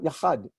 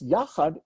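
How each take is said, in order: First: The stress is on the second syllable. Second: The stress is on the first syllable. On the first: The speaker calls it wrong. "not the second" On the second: The speaker calls it right. "It's the stresses on the first syllable"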